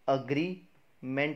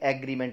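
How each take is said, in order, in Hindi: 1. पहला स्वर "uh" जैसा बोला जाता है। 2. पहला स्वर "eh" जैसा बोला जाता है। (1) "अग्रीमेंट बनेगा" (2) "ना कि एग्रीमेंट बनेगा"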